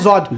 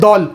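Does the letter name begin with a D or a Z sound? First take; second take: Z; D. First: The letter name begins with a Z sound. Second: The letter name begins with a D sound. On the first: This is how Urdu speakers say it. "हम बोलते हैं" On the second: This is how native Arabic speakers say it. "अरब बोलते हैं"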